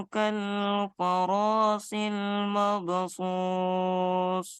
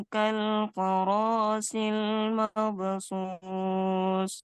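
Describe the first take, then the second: The two takes are said the same way.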